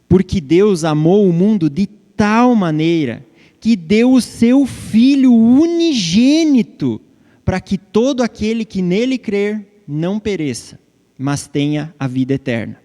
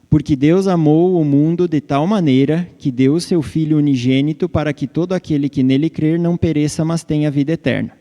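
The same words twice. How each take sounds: First: The emphasis falls on his only begotten Son. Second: It is read flatly with no emphasis, robot-like.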